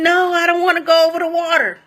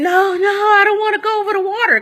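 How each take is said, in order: First: High-pitched panicked no, retelling a terrified scream; reliving the fear of being carried over water; mock panicked scream. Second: Much higher, desperate pleading no; panicked screaming. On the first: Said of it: "So I'm screaming". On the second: Retold or imitated. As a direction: squeal it like someone terrified of sharks. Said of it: "I'm screaming".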